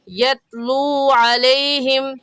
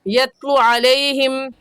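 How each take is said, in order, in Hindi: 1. पहले शब्द का स्वर लंबा खींचकर पढ़ा जाता है। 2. पहले शब्द का स्वर छोटा पढ़ा जाता है। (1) "सही है यत्लू अलैहिम" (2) "अक्सर हजरात पढ़ जाते हैं यत्लू अलैहिम, जो कि गलत है"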